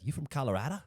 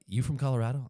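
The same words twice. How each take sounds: First: High-pitched mock Australian accent; botched New Yorker that comes out Australian; accidental Australian accent. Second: Loud, high mock New Yorker; second try at a New York accent. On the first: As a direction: question in a put-on Australian accent. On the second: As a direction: challenge them like a New Yorker. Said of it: "if I go to New York".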